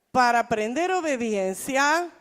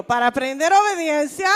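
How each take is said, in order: First: Said in the usual way. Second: Preacher leading the congregation, louder; loud call-and-response line; louder call to repeat. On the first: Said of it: "Dígale, diga". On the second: Shown as a demonstration. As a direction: say it out for them to echo. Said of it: "dígalo conmigo".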